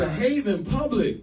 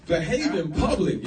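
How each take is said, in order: First: "Behave" punched high, loud and slow; stress on behave. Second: "behave" hit slow and falling; stress on behave. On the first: Repeating the rule to listeners, louder stressed "Behave". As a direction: drive the rule home on "Behave". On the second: Telling couples to behave in public, slow stressed "behave". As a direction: lean hard on "behave" as a warning. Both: Shown as a demonstration.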